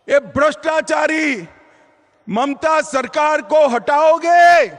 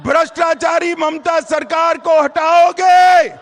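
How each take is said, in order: First: Rally call. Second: Shouted rally question; louder rally shout. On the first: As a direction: call out to the crowd. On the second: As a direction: belt it out to the crowd. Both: Real, not acted. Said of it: "जोर से बोलो अंत तक".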